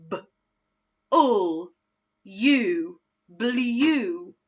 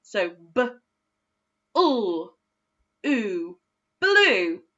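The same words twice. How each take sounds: First: "blue" said with a u sound, as bliju; wrong-way blend. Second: "blue" with a long oo, as bloo; right-way blend. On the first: Teacher testing the wrong vowel in "blue" for pupils. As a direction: try the you sound on "blue". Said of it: "by using the U sound". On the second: Teacher confirming the oo sound for the class. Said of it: "we say it with the oo sound". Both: Shown as a demonstration.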